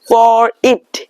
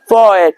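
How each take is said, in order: First: The tongue touches the ridge for the t. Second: The tongue stays off the ridge for the t. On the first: "you can observe totally that your tongue is touching your ridge" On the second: "But in the American accent, by the rule, don't let your tongue touch the upside"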